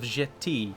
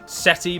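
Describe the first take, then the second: First: The name begins with a J sound. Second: The name does not begin with a J sound. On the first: "I've gone with with with J for some reason"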